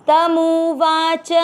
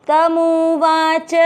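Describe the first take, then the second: The two takes are said the same way.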